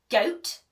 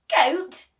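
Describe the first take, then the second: First: Said in the usual way. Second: High, loud shocked goat; outraged disbelief. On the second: Acted. Pirate chief to the troll, shocked loud question. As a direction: bark it back in disbelief.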